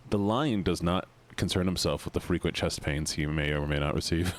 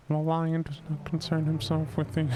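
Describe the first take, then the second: First: Low, solemn lion proclamation; grave deep narrator voice. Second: Said in the usual way. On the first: Pretend.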